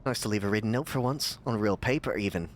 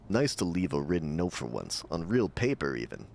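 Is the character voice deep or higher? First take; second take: higher; deep. First: It is read in a higher voice. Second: It is read in a deep voice. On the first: The speaker calls it right. "There, that's Cliff from now on" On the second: The speaker calls it wrong. "Cliff doesn't have a, a deep voice"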